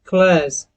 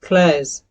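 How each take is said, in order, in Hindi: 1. यह American accent में बोला गया है। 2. यह अमेरिकन एक्सेंट में बोला गया है।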